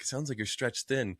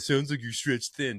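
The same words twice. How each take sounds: First: It is said in an encouraging, supportive tone. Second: It is said in an annoying, needling tone.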